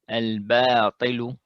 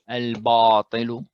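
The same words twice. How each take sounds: First: The 'ba' is said light, not thickened. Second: The 'ba' is said heavy and thickened. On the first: The speaker calls it right. "it's supposed to be al-batil" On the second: The speaker calls it wrong. "as opposed to"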